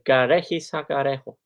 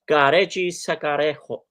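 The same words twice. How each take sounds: First: The J sounds are said softly. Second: The J sounds are said with force.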